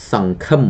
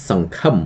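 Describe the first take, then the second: No difference in how they are said.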